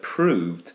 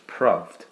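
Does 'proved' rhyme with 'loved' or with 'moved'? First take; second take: moved; loved. First: The vowel sounds like the one in 'moved'. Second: The vowel sounds like the one in 'loved'. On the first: This is the usual modern pronunciation. "the word proved" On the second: This is how it was said in Shakespeare's time. "would be in Shakespeare's time pronounced proved"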